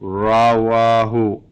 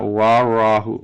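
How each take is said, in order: First: The syllables come in the order ra-wa-hu. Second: The first two syllables are swapped: wa-ra-hu. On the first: The speaker calls it right. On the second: The speaker calls it wrong. "not wa ra hu"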